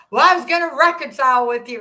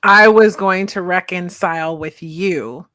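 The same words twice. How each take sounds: First: Louder, higher retold yell; mock yell. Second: Slow, lower and mocking; slow, lower mock repeat; mocking echo. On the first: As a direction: throw his indignant line back. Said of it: "He starts yelling at me". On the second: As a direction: echo his line with disbelief. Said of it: "that's just powerful".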